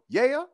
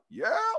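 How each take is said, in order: First: It is said in his normal voice. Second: It is said imitating Rochester's voice.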